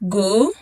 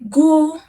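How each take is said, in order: First: The pitch rises from mid to high. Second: The pitch stays high and level.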